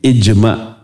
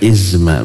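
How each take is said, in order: First: The middle consonant is a j sound. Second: The middle consonant is a z sound. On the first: The speaker calls it right. "tapi dengan jim" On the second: The speaker calls it wrong. "bukan izma, bukan dengan Z"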